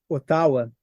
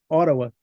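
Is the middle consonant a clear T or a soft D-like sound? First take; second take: clear T; soft D. First: The middle consonant is a clear T. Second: The middle consonant is a soft D-like sound. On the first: This is how it is heard in Brazil. "A gente está acostumado com a pronúncia do, do jogo de tabuleiro War" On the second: This is how Canadians say it. "Fica meio que um D meio mastigado, meio dentro da boca"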